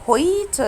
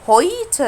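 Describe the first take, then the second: No difference in how they are said.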